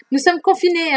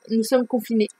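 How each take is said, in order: First: "Nous sommes confinés" said higher, leaning on "confinés"; emphatic repeat. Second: Said in the usual way. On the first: Shown as a demonstration. Reminding viewers of lockdown, "Nous sommes confinés" emphatic.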